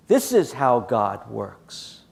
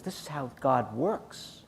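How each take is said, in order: First: "This is how God works" drawn out word by word; very slow, weighty stress on "This is how God works"; slow emphatic repeat. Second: Said in the usual way. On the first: Real, not acted. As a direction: land each word of "This is how God works" slowly and firmly. Repeats his point for emphasis.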